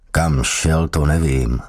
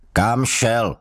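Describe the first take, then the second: First: Unhurried, calm reply; slow answer. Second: Higher, sharp sergeant's bark; barked question. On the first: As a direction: take your time answering. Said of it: "odpověděl pomalu Gavenda". (Gavenda odpovídá pomalu) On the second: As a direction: snap the question out. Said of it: "štěkl na něho strážmistr". (strážmistr štěkne otázku) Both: A narrator's reading.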